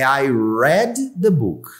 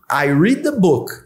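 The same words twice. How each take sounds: First: The word read has a short eh vowel. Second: The word read has a long ee vowel. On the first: The reading happened in the past. "O passado é I read the book" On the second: The reading happens now. "O presente é I read"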